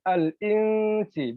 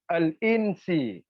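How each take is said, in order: First: The n sound is hidden and softened. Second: The n sound is pronounced fully and clearly. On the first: The speaker calls it right. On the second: The speaker calls it wrong.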